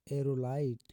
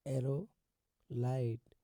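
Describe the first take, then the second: First: Said in the usual way. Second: "एरोलाइट" slowly, with a pause before "लाइट"; split in two. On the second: Shown as a demonstration. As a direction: break "एरोलाइट" into "एरो" and "लाइट". Teacher breaks word up for learners.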